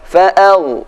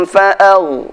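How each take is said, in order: Both takes have the same delivery.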